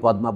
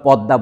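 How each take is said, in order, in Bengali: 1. যুক্তবর্ণটি সংস্কৃতের মতো ঢঙে বলা হয়েছে। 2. যুক্তবর্ণটি বাংলা ঢঙে বলা হয়েছে। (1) "পদ্মা বলি না" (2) "আমরা পদ্মা বলি"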